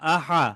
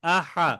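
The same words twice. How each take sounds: Both takes have the same delivery.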